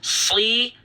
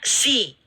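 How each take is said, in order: First: The s is heavy and thick, with tongue low. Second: The s is light and thin, like sin. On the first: The speaker calls it right. "dia adalah huruf yang tebal atau disebut dengan tafkhim" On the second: The speaker calls it wrong. "Ini tidak boleh dibaca si"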